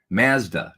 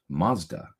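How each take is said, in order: First: It is said with a Canadian pronunciation. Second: It is said with an American pronunciation. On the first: "if you're from Canada" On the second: "if you're from the United States"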